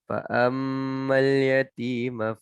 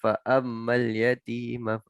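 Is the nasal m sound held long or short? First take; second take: long; short. First: The nasal m sound is held for two counts. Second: The nasal m sound is cut short. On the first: The speaker calls it right. "Dua harakat ni" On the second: The speaker calls it wrong. "Jangan fa'ammal yatima"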